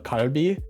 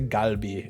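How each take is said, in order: First: It is said with a Korean-style pronunciation. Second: It is said with an English-style hard g. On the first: The speaker calls it right. "that's called uh" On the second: The speaker calls it wrong. "it's spelled with a G, so people say galbi, and I'm like, that's not correct"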